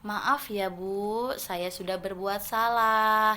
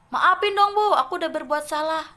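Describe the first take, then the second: First: It is said politely, softly and sincerely. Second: It is said rudely and insincerely, not softly.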